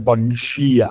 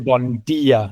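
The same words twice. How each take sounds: First: It is said in a Brazilian Portuguese accent. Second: It is said in a European Portuguese accent.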